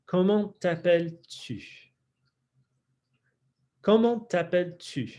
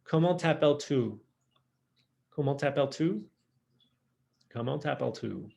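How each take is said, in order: First: Careful French accent, higher pitch, sharp pouted tu; French accent with lips pushed forward on tu. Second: Comment t'appelles-tu in American accent, tu like "too"; American learner's French, lips not pushed forward. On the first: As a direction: imitate French accent on comment t'appelles-tu. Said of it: "imitate that French accent". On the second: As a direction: say the French question with slack American vowels. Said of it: "it's gonna be very American". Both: Shown as a demonstration.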